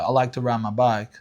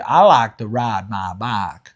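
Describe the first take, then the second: First: It is said in an African American accent. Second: It is said in a longer, nasal Southern accent. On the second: "the Southern people would say ... a little longer and a little bit more nasal"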